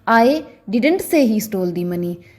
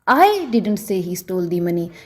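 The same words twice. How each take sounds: First: The stress is on the word didn't. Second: The stress is on the word I. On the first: The speaker denies having said it. "अगर मैं didn't पर stress डालकर बोलूं" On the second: Someone else may have said it. "अगर मैं आई पर जोर देकर बोलूं"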